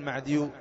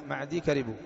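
First: معديو with a u vowel added after the ya; wrongly vowelled ya. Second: معدي ending in a plain long ee before كربوا; silent final ya. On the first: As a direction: end معديو on "-yu" as the mistake to avoid. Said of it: "لا تقل معديو". (نطق «معديو» بضم الياء خطأً) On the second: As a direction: keep the ي of معدي unvowelled, no "-yu". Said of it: "سكن الياء". (نطق «معدي» بتسكين الياء) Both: Shown as a demonstration.

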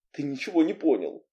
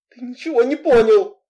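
First: Said in the usual way. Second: High, loud, exasperated outburst; angry raised voice. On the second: A narrator's reading. Heroine angrily telling Anton he misunderstands, voice raised. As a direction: raise your voice in anger. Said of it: "Разозлившись, я повысила голос".

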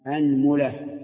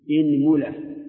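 First: أنملة with open a on the hamza and u on the meem, anmula; أنملة: a-nmu-la, fatha then damma. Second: إنملة with i on the hamza, inmula; إنملة: i-nmu-la, kasra on the hamza. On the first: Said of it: "افتح الهمزة مع ضم الميم". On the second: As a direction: say إنملة starting with i. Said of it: "اكسر الهمزة". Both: Shown as a demonstration.

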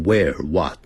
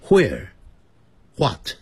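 First: WHERE and WHAT with a simple w, no h; Midwestern where, what. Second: WHERE and WHAT opened with "hw"; Northeastern where, what. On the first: Teacher shows how Midwesterners talk, "where what" without h. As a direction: say "where what" with plain w onsets. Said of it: "他们都是念where what". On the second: Teacher shows how Northeasterners talk, "where what" with hw. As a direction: say "where, what" as hwere, hwat. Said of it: "他们念成where". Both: Shown as a demonstration.

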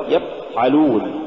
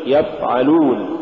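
First: يفعلون with the f cut short; blocked f and a gap in يفعلون; choked-off fa. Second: يفعلون with the f running; continuous f before the ayn in يفعلون; soft flowing fa. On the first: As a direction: stop dead on the f of يفعلون. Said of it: "ولا تقل". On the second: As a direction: let the f flow in يفعلون. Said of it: "قل". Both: Shown as a demonstration.

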